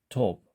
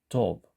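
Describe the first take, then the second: The two takes are said the same way.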